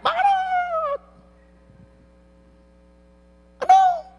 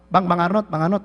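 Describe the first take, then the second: First: Shouted call. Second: Said in the usual way. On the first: Shown as a demonstration. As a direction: yell the name to someone far off. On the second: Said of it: "Enggak. Teriak".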